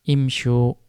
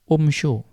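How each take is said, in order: First: The first vowel is an 'i' sound. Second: The first vowel is a 'u' sound. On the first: The speaker calls it right. "hamzah wasalnya dibaca kasroh" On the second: The speaker calls it wrong. "tidak dibaca umsyu"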